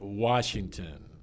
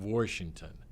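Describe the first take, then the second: First: It is said with a standard American pronunciation. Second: It is said with a Pittsburgh regional pronunciation. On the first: The speaker calls it right. "I can say Washington" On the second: The speaker calls it wrong. "instead of Washington"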